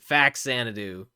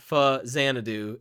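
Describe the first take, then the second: First: The first syllable is 'fax', then 'Xanadu'. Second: The first syllable is 'fa', then 'Xanadu'. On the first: The speaker calls it right. "it's fax Xanadu" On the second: The speaker calls it wrong. "it's not fa Xanadu"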